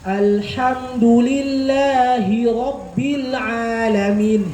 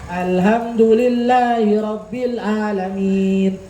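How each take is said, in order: First: It is read carefully, each letter clearly articulated. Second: It is read quickly, letters blurred together. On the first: The reader understands the letters. The speaker calls it right. "Tapi ketika paham" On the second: The reader does not understand the letters. The speaker calls it wrong. "Biasa aja bacanya itu cepet aja dia"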